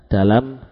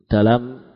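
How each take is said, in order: The two takes are said the same way.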